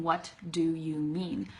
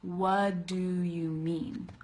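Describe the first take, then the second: First: Slow, separate "What", with its T; careful, every word said in full. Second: Slow "What do" as "wuh-duh", no T; slowed reduced form. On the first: Teacher showing what she is not saying, word by word. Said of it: "I'm not saying". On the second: Teacher breaking down what she says, slow reduced form. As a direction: stretch out "What do you mean", dropping the T. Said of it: "I'm saying". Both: Shown as a demonstration.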